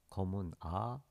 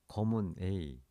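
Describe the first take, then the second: First: The letter A is said as French 'ah'. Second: The letter A is not said the French way. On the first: The speaker calls it right. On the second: The speaker calls it wrong.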